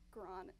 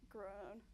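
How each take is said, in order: First: GROWN slipped to "grahn", with an open AH vowel; slipped pronunciation. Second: Said in the usual way. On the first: Real, not acted. Singer fumbling the word mid-answer, GROWN coming out as "grahn". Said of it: "That's my accent". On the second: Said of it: "I know words".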